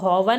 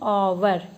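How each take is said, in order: First: The word begins with a spoken h sound. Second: The word begins directly with a vowel sound. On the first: The speaker calls it wrong. "हॉवर नहीं पढ़ेंगे हम" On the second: The speaker calls it right. "इसको क्या पढ़ेंगे, ओवर"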